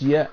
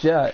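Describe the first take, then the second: First: It begins with a soft Y sound. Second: It begins with a hard J sound. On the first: The speaker calls it right. "it's yeah" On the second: The speaker calls it wrong. "Instead of ja"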